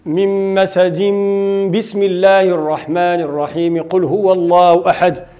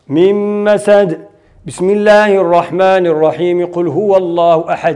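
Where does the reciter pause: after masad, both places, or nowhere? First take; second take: nowhere; after masad. First: It is recited straight through with no pauses. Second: It pauses only before the basmala, then continues. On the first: The end of the surah, the basmala and the next surah are all joined. "وصل الجميع" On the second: The surah ends separately and the basmala joins the next surah. "نقف في آخر السورة ونبتدأ البسملة بأول السورة الأخرى"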